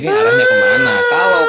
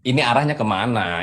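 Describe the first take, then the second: First: High, loud angry shout. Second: Said in the usual way. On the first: Real, not acted. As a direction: yell it at him. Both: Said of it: "tenang, Bang".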